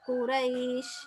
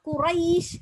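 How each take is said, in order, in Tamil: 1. நீட்சி இலகுவாகவும் மென்மையாகவும் உச்சரிக்கப்படுகிறது. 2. நீட்சி முழுமையாகவும் அழுத்தமாகவும் இழுத்து உச்சரிக்கப்படுகிறது.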